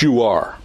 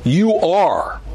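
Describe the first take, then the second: First: Said in the usual way. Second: YOU are said high and strong; emphatic affirmation, You raised high. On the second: Shown as a demonstration. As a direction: lean hard on You are. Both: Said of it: "It's emphatic".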